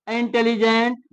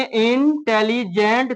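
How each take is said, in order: First: Said in the usual way. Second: "इंटेलिजेंट" slowly broken as in-telli-gent; split into syllables. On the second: Shown as a demonstration. Teacher breaking up a word for students, "इंटेलिजेंट" in three slow parts. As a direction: separate "इंटेलिजेंट" into three spoken beats. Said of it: "तोड़ देंगे".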